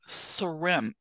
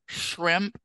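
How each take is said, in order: First: The word begins with a plain 's' sound. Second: The word begins with an 'sh' sound. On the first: The speaker calls it wrong. "she would go srimp" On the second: The speaker calls it right. "instead of shrimp"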